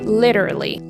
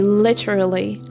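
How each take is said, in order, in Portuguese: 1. Ela é falada com sotaque americano. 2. Ela é falada com sotaque britânico. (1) "if you're gonna say with an American accent, you should say literally" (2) "Literally is a pronunciation from the British accent"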